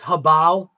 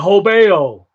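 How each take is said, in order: First: The first syllable sounds like 'huh'. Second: The first syllable sounds like 'ho'. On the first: It is said the way it should be. The speaker calls it right. "It's actually it's uh huh, like H U H, huh, bow, habao" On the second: It is read the way it looks. The speaker calls it wrong. "I call it habeo just because look at look at it, doesn't it? Doesn't it look like it says ho? But that's obviously Bostonian English"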